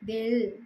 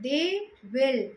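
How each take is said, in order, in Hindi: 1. दोनों शब्द मिलकर एक छोटे अक्षर में बोले जाते हैं। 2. दोनों शब्द पूरे बोले जाते हैं।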